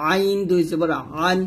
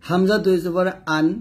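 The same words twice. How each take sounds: First: আইন and আন squeezed from mid-throat; pressed ain. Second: আন with a clean glottal onset; hamza from throat base. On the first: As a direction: constrict the throat on the vowel of আন. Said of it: "হলকের মাঝখান থেকে চাপ দিয়ে". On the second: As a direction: start আন on a simple catch. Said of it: "হলকের শুরু থেকে বলতে হবে". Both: Shown as a demonstration.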